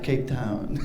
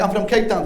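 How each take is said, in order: First: Low, hushed mimicry of a South African accent; echoing his South African accent. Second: Said in the usual way. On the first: Locals repeating the comedian's words, soft mock South African accent. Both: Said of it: "repeating what I'm saying".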